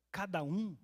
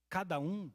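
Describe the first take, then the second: No difference in how they are said.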